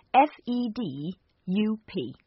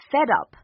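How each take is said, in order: First: "F E D U P" spelled letter by letter, slowly. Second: Said in the usual way. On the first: Shown as a demonstration.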